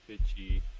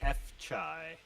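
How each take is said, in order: First: The name is said as fitchy. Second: The name is said as eff-chai. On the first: The speaker calls it right. "It's it's Fitchy" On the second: The speaker calls it wrong. "I may have that wrong"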